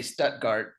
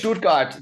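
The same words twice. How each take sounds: First: "Stuttgart" said the American way, STUT-gart; plain English "Stuttgart" with a soft s. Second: "Stuttgart" said the German way, SHTUT-gart. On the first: Comedian showing the version of "Stuttgart" that doesn't sound German. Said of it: "then it doesn't sound German". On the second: Comedian showing the German-sounding way to say "Stuttgart". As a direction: say "Stuttgart" with a German SHT and hard t. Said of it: "depending on how you say it". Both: Shown as a demonstration.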